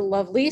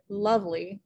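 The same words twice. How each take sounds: First: "lovely" stressed on the last syllable, love-LEE; wrong second-syllable stress. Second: "lovely" stressed on the first syllable, LOVE-ly; natural "lovely", strong LOVE and weak ly; trochaic stress. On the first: Teacher showing a weird reversal, "lovely" stressed on LY. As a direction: punch the LY of "lovely" as a deliberate mistake. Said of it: "You wouldn't say". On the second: Teacher giving an example of a trochee, "lovely" stressed on LOVE. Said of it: "stressed and then unstressed". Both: Shown as a demonstration.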